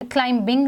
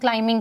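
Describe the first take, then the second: First: The b sound is pronounced in the word. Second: The b sound is silent in the word. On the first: The speaker calls it wrong. "इसको हम क्लाइंबिंग नहीं कहेंगे" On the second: The speaker calls it right. "हम इसको क्लाइंबिंग कहेंगे"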